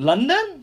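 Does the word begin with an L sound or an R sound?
L sound. The word begins with an L sound. The speaker calls it right. "you mean London?"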